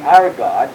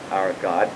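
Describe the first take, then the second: First: "our" lifted and pressed, before "God"; stress on our. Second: Said in the usual way. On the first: Shown as a demonstration. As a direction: point the listener to "our". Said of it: "note the".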